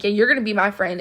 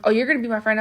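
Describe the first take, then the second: First: Mildly pushy, imitating an aggressive girl; understated imitation of an aggressive demand; mock aggressive tone. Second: Said in the usual way. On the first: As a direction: retell it as a pushy demand, lightly. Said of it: "like, an aggressive tone". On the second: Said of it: "she said it in, like, an aggressive tone".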